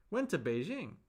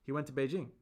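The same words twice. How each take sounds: First: "Went to Beijing" echoed with raised pitch; echoed query. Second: Said in the usual way. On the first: Shown as a demonstration. Echoes B's answer as a question. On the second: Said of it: "Then person B says".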